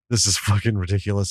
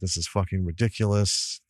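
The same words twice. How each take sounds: First: It is said in a delighted, enthusiastic tone. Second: It is said in a dismissive, disgusted tone. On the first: The movie is wonderful. "It's the best thing ever" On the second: The movie is trash. "Wipe it up with a shit wipe and get rid of it"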